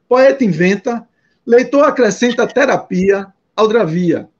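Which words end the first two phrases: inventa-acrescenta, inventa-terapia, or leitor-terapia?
inventa-terapia. Pauses fall after inventa and after terapia. "dar um ritmo diferente"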